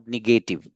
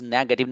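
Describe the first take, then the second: First: Negative said as ni-GAY-tiv; wrong pronunciation. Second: Negative said as NEG-uh-tiv; correct pronunciation. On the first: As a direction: stress a long GAY in negative. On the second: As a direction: stress the first syllable of negative. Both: Shown as a demonstration. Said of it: "not negative".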